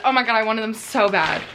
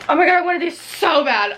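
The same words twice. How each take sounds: First: Said in the usual way. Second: Excited. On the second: Real, not acted. Sees wanted books.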